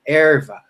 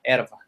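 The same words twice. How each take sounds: First: The R is strong, like an English R. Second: The R is like a Spanish R. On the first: This is how the speaker personally says it. "lean on the R" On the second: This is how people in Rio Grande do Sul say it. "The Spanish R, exactly"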